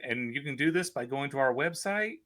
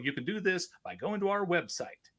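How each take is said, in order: First: The voice rises at the end. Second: The voice falls at the end. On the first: The speaker calls it wrong. "they would say" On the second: The speaker calls it right. "say no"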